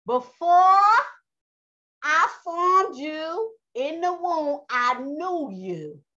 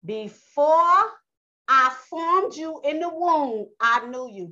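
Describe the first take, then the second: First: Very slow, drawn-out divine proclamation; Yah speaking. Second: Lightly voiced God, high and loud on "Before"; Yah speaking. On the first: Acted. Preacher repeating Yah's words for Israel, slowly proclaimed. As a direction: ring out "Before" high and loud, then stretch each phrase. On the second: Preacher quoting Yah to Jeremiah, lightly proclaimed. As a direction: proclaim it slowly as God's word. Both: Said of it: "This is what Yah said".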